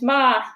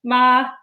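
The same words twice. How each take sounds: First: It is said with the first tone. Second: The same.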